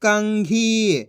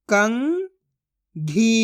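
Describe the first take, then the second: First: Said in the usual way. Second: कंघी split as "कं", long pause, "घी"; syllable by syllable. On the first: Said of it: "तो मिलके बन जाएगा". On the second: Shown as a demonstration. Teacher sounds out कंघी for learners, syllable by syllable. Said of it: "एक एक अक्षर का उच्चारण करके".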